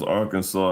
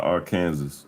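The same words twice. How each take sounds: First: Said in the usual way. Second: "Arkansas" said to rhyme with Kansas, final s sounded; as spelled, like Kansas. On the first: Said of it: "Why is it pronounced". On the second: Shown as a demonstration. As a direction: say "Arkansas" as ar-KAN-zus. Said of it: "and not Arkansas".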